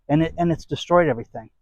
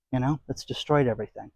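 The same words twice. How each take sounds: First: Said in the usual way. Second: "destroyed" said again, much softer; quiet echo. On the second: Real, not acted. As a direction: drop the voice on the repeat. Repeated complaint, quieter echo.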